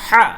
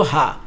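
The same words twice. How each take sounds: First: হা said thin and airy; light ha. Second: হা said thick and deep from the throat; throaty heavy হা. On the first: Teacher contrasting the light হা with the heavy one. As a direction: breathe out a light হা. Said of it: "নিচেরটা কি? পাতলা হবে". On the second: Teacher contrasting the heavy হা with the light one. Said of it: "এটা গাঢ় হবে". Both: Shown as a demonstration.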